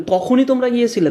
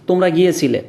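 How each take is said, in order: First: তখনই emphasized; stress on তখনই. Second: Said in the usual way. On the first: Shown as a demonstration. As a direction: hit তখনই. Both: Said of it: "তার মানে ওটার উপর কিন্তু একটা জোর দেওয়া হচ্ছে".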